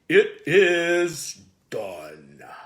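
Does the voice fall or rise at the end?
falls. The voice falls to a low note at the end.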